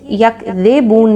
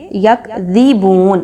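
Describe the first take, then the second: First: یکذبون with the zer on ذ blurred, said wrong; a careless یکذبون that drops the clear zer; wrong pronunciation. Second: یکذبون said slowly with a clear zer on ذ; right way: یکذبون, slow and clear; correct pronunciation. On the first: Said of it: "یکذبون نہیں پڑھنا". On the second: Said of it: "بلکہ یکذبون". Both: Shown as a demonstration.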